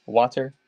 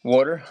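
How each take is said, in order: First: "water" with an open "ah" first vowel, "wah-ter"; careful water. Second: Water with a Maryland "aw" vowel, "wawter"; Maryland accent. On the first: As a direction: sound out "water" as "wah-ter", not "wawter". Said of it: "bad I said water". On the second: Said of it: "Maryland's got a terrible accent". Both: Shown as a demonstration.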